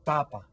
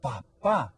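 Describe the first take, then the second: First: Papa stressed on the first syllable, PA-pa; unaccented Papa. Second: Papa stressed on the last syllable, pa-PA; accented final syllable. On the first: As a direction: say Papa as Spanish for potato, PA-pa. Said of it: "It doesn't have an accent". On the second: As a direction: say papa as Spanish for dad, pa-PA. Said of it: "if we add the accent mark". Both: Shown as a demonstration.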